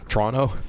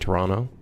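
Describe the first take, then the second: First: The first vowel is dropped entirely. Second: The first vowel is pronounced clearly. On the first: "They completely skip the first O" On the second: "correct phonetic way of saying Toronto"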